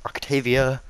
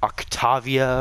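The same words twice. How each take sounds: First: Octavia with "tay" in the middle; own pronunciation. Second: Octavia with "tah" in the middle; rejected pronunciation. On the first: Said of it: "I call Octavia like". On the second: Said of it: "not Oc". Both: Shown as a demonstration.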